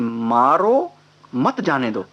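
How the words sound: There is a pause after 'maaro'.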